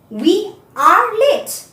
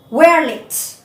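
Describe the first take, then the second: First: It is said as three full words. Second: It is said with the contracted form. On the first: The speaker calls it wrong. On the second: The speaker calls it right. "It pronounced like where"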